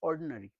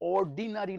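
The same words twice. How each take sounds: First: The vowel after 'ord' is nearly dropped. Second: The vowel after 'ord' is fully pronounced. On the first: The speaker calls it right. "অর্ডিনারি আইটা যেন নেই" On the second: The speaker calls it wrong. "অর্ডিনারি নয়"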